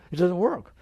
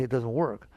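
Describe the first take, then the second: First: "It doesn't work" said louder and higher, "work" rising; emphatic. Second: Said in the usual way. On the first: Shown as a demonstration. Teacher stressing to listeners that chasing desires fails. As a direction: declare "It doesn't work" with force. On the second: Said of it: "wake up and say".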